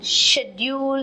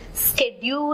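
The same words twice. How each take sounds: First: The word is said in a British accent. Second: The word is said in an American accent. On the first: "is the British pronunciation" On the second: "is from America"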